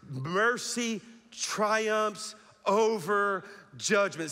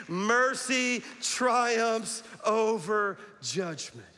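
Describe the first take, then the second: First: Slow, stressed, every word weighted; slow emphatic declaration. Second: Chanted, slow unison declaration, drawn out; chanted, lead them in "Mercy triumphs over judgment", slow and loud; slow congregational chant. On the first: Pastor leading the church in a slow emphatic declaration. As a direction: preach "Mercy triumphs over judgment" slowly, each word hit. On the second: Chanted, pastor and congregation say it together, slow and emphatic. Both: Shown as a demonstration. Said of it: "Say it with me".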